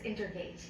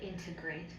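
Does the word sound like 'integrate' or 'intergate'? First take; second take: intergate; integrate. First: The r sound comes right after 'in'. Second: The r sound comes right after the t. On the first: The speaker calls it wrong. "She says integrate" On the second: The speaker calls it right. "instead of integrate"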